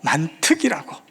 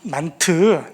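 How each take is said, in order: First: The word ends with a final k sound. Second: The word ends without a final k sound. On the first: The speaker calls it right. "만트가 아니고 만특이라고" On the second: The speaker calls it wrong. "K가 빠져서 만트로 들린 거예요"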